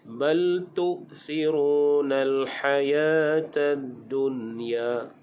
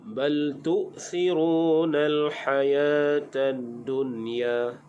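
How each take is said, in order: No difference in how they are said.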